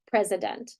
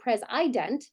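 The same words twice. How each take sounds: First: The unstressed vowel is reduced to schwa. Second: The unstressed vowel is full and clear. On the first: The speaker calls it right. "we would flex it to a schwa" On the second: The speaker calls it wrong. "We wouldn't say president"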